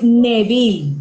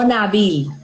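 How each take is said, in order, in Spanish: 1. La primera vocal suena como 'e'. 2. La primera vocal suena como 'a'. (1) "es Nabil, con E" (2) "no Nabil"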